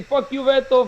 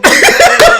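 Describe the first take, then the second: First: Said in the usual way. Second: Fuck you, Beto yelled out loud and high; mock yell. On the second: Imitating Toño yelling at Beto, loud mock yell. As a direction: belt out the insult at full volume, YOU punched hardest. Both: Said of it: "like, like that one".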